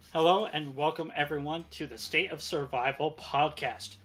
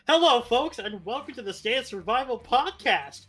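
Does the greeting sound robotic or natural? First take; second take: robotic; natural. First: It sounds stiff and robotic. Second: It sounds relaxed and natural.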